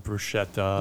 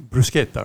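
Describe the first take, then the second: First: "bruschetta" with a soft SH, broo-SHET-ta; common mispronunciation. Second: "bruschetta" with a hard K, broo-SKET-ta; Italian pronunciation. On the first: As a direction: say the sch in "bruschetta" as sh. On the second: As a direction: say the sch in "bruschetta" as sk. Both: Shown as a demonstration. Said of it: "they mispronounce that all the time".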